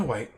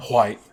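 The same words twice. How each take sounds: First: Said in the usual way. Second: "white" with a loud, breathy hw onset; overcorrected "white". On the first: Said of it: "excuse me, white". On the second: Shown as a demonstration. Painter correcting himself on the colour, "white" said as "hwite". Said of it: "It's kinda, excuse me, white".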